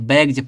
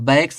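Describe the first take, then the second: First: The word ends with a z sound. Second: The word ends with an s sound. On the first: The speaker calls it right. "बैग्स पढ़ते हैं" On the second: The speaker calls it wrong. "इसको बैग्स नहीं"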